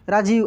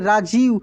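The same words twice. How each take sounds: First: The 'jee' syllable is said without extra stress. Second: The 'jee' syllable is said with extra stress. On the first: The speaker calls it wrong. "ऐसे नहीं" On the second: The speaker calls it right. "थोड़ी सी ज पे जोर लगता है।"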